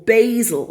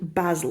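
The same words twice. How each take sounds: First: It is said with an American accent. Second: It is said with a British accent.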